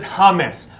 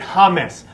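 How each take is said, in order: First: The name is said in a non-English way. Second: The same.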